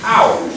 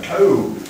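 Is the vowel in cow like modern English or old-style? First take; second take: modern; old-style. First: It is said with the modern English vowel. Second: It is said with an older, northern-style vowel. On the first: This is how the word is said today. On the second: This is how the word was said long ago.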